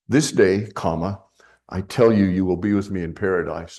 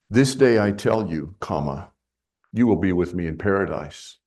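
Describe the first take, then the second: First: The break comes right after "This day". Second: The break comes after "I tell you".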